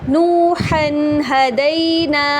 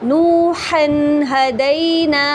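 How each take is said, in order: No difference in how they are said.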